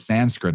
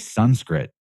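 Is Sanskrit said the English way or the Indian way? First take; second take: English; Indian. First: The word has the usual English pronunciation. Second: The word has an Indian-style pronunciation. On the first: This is the form given to outsiders. "We're given Sanskrit as the word" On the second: This is the form native speakers use. "but they say Sanskrit"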